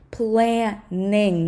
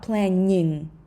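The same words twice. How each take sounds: First: The middle consonant is hard, not palatalized. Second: The middle consonant is soft, palatalized. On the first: The speaker calls it right. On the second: The speaker calls it wrong.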